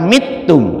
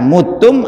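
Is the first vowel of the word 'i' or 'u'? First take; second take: i; u. First: The first vowel is an i sound. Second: The first vowel is a u sound. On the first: "Kalau ada yang membaca mitum itu tidak, jangan disalahkan" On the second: "mutum atau mitum itu boleh"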